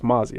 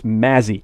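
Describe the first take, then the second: First: The first vowel sounds like the vowel in 'hot'. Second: The first vowel sounds like the vowel in 'cat'. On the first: The speaker calls it right. "I gotta get the pronunciation right" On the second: The speaker calls it wrong. "Because I was saying it wrong"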